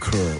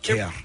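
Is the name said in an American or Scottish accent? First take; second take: American; Scottish. First: It is said in an American accent. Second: It is said in a Glasgow Scottish accent.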